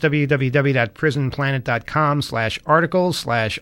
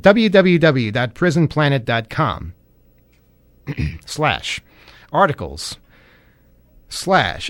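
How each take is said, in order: First: The address is read quickly. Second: The address is read slowly.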